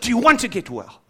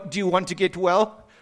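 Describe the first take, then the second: First: It is said firmly and bluntly. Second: It is said softly and gently.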